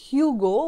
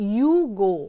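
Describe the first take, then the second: First: The name begins with an h sound. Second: The name begins directly with a vowel. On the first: "ইংরেজিতে যদি আমি প্রনাউন্স করি তাহলে it's হিউগো" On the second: "in French it is প্রনাউন্সড as ইউ ইউগো। ... এইচ pronounce করে না"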